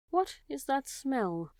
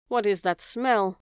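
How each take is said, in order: First: Slow, high wondering rat; puzzled rat. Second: Slow, puzzled rat voice; sniffing rat. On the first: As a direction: ask it slowly, high and wondering. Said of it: "he asked". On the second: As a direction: slowly sniff out the question. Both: A narrator's reading.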